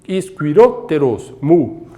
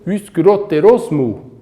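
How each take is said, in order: First: The two words are said separately, not joined. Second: The two words are joined into one unit. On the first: The speaker calls it wrong. "em vez de lermos iskyrotteros mu" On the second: The speaker calls it right. "nós lemos iskyrotterosmu"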